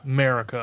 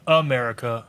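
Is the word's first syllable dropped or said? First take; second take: dropped; said. First: The word drops its first syllable. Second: The word keeps its first syllable. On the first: The speaker calls it right. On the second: The speaker calls it wrong. "Not America"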